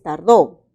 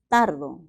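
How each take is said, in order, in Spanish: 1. El acento está en la última sílaba. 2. El acento está en la primera sílaba. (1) "Esta palabra es tardó" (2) "pero también se puede pronunciar tardo"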